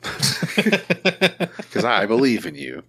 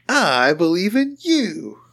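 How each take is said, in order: First: Slow, hammed-up heartfelt voice; drawn out like a cheesy pep talk; mock sincere. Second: Slow, high, sing-song mock encouragement; mock sincere, higher. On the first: Mock-tender to his buddy, slow and hammed-up. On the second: Cooing higher to his buddy, slow mock sincerity.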